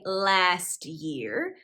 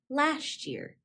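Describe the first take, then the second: First: The t and y sounds stay separate. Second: The t and y blend into ch. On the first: "I didn't say last year" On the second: "those sounds were replaced with the ch"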